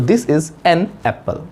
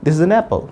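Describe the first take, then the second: First: Slow, with "an" as full "ann" apart from "apple"; "an" unreduced, unlinked from "apple"; careful writing pronunciation. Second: "an apple" run together as "uh-napple"; quick, joined "an apple", the n starting "apple"; short linked speech. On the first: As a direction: keep "an" and "apple" as separate words, slowly. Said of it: "एक writing sound है". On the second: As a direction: reduce "an" and glide it into "apple". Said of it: "तो हमें short में बोलना चाहिए". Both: Shown as a demonstration.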